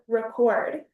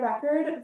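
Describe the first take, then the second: First: The stress is on the second syllable. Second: The stress is on the first syllable. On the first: It names an action, a verb. "the verb record" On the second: It names a thing, a noun. "you go to the record store and buy a record"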